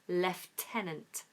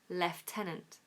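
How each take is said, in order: First: The first syllable has an f sound. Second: The same.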